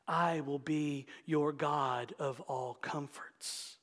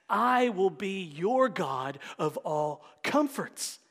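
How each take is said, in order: First: Soft, slow, tender reading of the promise. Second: Slow, full-voiced proclamation of the promise; full reading. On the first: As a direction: savor the promise gently. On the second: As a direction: read it again with conviction. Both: Shown as a demonstration. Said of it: "I gotta read it again".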